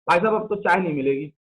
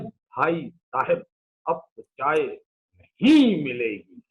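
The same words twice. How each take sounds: First: The words are pronounced in a casual, colloquial way. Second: The words are pronounced carefully in standard form. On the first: It sounds like a real tea seller talking. The speaker calls it right. "आप अगर चाय बना रहे हैं" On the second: Correct language breaks the character. The speaker calls it wrong. "भाषा के चक्कर में कैरेक्टर की जान ले ली"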